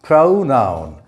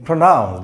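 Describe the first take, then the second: First: "Pronoun" as PROH-noun, full O; diphthong O. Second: "pronoun" as pruh-NOUN, weak first vowel; schwa in first syllable. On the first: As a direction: stress the first syllable of "Pronoun" with a gliding O. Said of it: "it represents a compound vowel sound". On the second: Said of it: "the O represents an A sound". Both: Shown as a demonstration.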